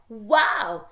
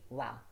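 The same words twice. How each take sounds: First: The word is said excitedly, with lively expression. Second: The word is said flatly, without expression. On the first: The speaker calls it right. "but wow, especially if there's an exclamation mark" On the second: The speaker calls it wrong. "the child will not say wow"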